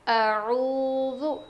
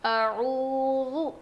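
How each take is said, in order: The two takes are said the same way.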